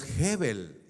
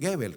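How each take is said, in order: First: "Gebel" starting with a raspy H-like sound; G as Spanish jota. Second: "Gebel" starting with g as in gato; hard G. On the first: Preacher giving the man's real surname, "Gebel" with jota G. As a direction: pronounce "Gebel" like Jébel. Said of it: "su apellido es Gebel". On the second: Preacher quoting what people call him, "Gebel" with hard G. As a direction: pronounce "Gebel" like Guébel. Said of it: "y le dicen Gebel". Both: Shown as a demonstration.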